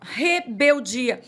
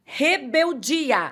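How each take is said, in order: First: Rebeldia drawn out slow with a rising end; stress on Rebeldia. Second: Rebeldia drawn out slow and high; stress on Rebeldia. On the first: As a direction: stretch Rebeldia slowly and lift the end. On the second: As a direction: stretch Rebeldia out slowly, falling at the end. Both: Shown as a demonstration. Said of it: "Essa é a palavra".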